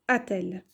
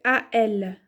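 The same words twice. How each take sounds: First: A-t-elle with a T sounded between A and ELLE; linking T. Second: A L as two vowels meeting, without a T between; no linking T. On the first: Teacher giving the corrected form, a-t-elle with linking T. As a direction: say "a-t-elle" softly, joining the vowels with a T. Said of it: "ça va dire, ça, ça va donner". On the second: Teacher showing what is hard to say, A L without linking T. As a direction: say "A L" slowly, leaving out the linking T. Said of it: "Ce n'est pas évident à dire". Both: Shown as a demonstration.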